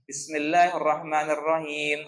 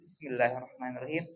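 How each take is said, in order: First: The phrase is said aloud and clearly. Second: The phrase is said softly, barely voiced. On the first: "kita baca secara jelas atau jahar" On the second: "kita baca sir dulu"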